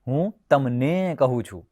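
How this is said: The second word carries the stress. It is told to you, nobody else. "તમને એટલે બીજા કોઈને નહીં"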